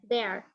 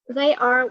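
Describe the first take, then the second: First: It is said as one contracted syllable. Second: It is said as two full words. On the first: "in the short way, it's pronounced like there" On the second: "we can pronounce like this one"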